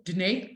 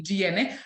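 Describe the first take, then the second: First: Danae said as "duh-nay"; mispronounced name. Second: Gianne said as "jee-eh-neh"; corrected name. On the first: Teacher slipping on a student's name, Danae said "duh-nay". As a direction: say Danae in two syllables, ending in "ay". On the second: Teacher correcting her slip on a student's name, Gianne in full syllables. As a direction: say Gianne with the final "neh" sounded. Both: Real, not acted. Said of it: "now I'm saying Danae".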